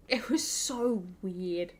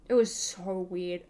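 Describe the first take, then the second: First: Slow, strange stretched delivery; put-on eerie drawl; drawn-out weird voice. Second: Said in the usual way. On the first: Shown as a demonstration. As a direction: stretch every word like it's creepy. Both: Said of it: "repeated: it was so weird".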